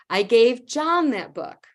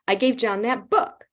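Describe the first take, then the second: First: The stress falls on the word John. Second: The stress falls on the word book. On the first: It was John who got it, not someone else. "I gave it to John, not Xiomara" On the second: It was the book, not another format. "not the C D, not the D V D, not the online version"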